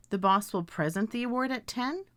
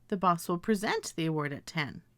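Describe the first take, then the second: First: "present" stressed on first syllable; present as PREZ-ent. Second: "present" stressed on second syllable; present as pre-ZENT. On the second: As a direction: say "present" as pree-ZENT, sentence falling. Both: Shown as a demonstration. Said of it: "I can pronounce these words as".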